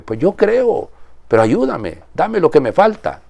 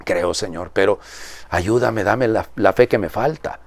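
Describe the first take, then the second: First: High, imploring cry of a desperate father; pleading father. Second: Soft, heartfelt prayer to God; quiet prayer. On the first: Retold or imitated. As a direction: beg like a father for his son. Father's plea retold emotionally. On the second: Real, not acted. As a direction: pray it softly as his own. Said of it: "esa va a ser mi oración".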